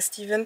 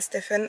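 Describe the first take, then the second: First: The name is said with a v sound. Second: The name is said with an f sound. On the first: The speaker calls it right. "ici, en tout cas, ça se prononce Steven" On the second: The speaker calls it wrong. "je crois que ça fait deux ans que je dis son prénom faux"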